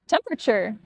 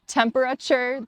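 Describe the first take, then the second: First: Some sounds are dropped from the word. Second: Every syllable of the word is pronounced.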